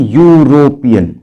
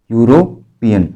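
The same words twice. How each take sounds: First: यूरोपियन drawn out slowly, starting on a clear यू sound; slow Hindi sounding. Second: Said in the usual way. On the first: Shown as a demonstration. Teacher to students, sounding out यूरोपियन slowly with a clear यू. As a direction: stretch यूरोपियन so the यू onset is heard. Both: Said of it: "तो इसको हिंदी में हम लोग कैसे बोलते हैं".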